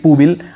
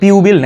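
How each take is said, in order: First: The first syllable has no glide, like 'pu'. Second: The first syllable has a y-glide, like 'pyu'. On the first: "আমার মনে হয় পুবিল" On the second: "পিউবিল নাকি পুবিল"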